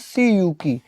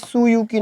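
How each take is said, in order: First: The first syllable has an 'ee' vowel. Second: The first syllable has an 'oo' vowel. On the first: The speaker calls it right. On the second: The speaker calls it wrong. "सुयुकी ना बोलकर"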